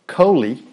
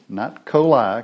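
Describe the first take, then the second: First: The word ends with an 'ee' sound. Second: The word ends with an 'eye' sound. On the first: The speaker calls it right. "the I's in Hebrew are pronounced as an E" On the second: The speaker calls it wrong.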